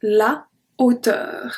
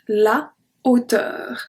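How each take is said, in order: First: The article is said fully, apart from the noun. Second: The same.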